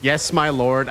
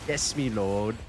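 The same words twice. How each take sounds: First: Said in the usual way. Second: Soft, lower mock British accent; playing a humble British servant. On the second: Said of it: "I changed the T T S to British".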